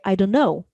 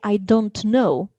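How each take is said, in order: First: The t at the end of don't is dropped. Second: The t at the end of don't is pronounced. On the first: The speaker calls it right. "because don't disappears before n" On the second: The speaker calls it wrong. "a fluent native speaker is not going to say"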